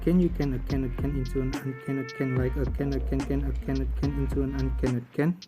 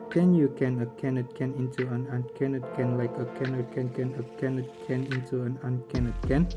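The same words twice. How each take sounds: First: It is said at a fast pace. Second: It is said at a normal pace.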